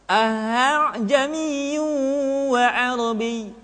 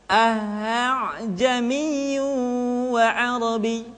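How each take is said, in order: Both takes have the same delivery.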